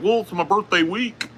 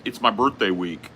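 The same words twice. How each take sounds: First: High, mocking birthday-boy voice; imitating Boogie. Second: Said in the usual way. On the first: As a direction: pitch it way up to mimic an insistent friend. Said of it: "And he's like". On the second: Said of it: "He's like".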